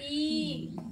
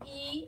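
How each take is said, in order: First: The vowel is drawn out for three beats. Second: The vowel is held for two beats.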